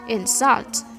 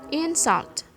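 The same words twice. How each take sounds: First: The stress is on the second syllable. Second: The stress is on the first syllable. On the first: The word is used as a verb. "stress placementnya ada di second syllable" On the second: The word is used as a noun. "maka stresnya ada di syllable yang pertama"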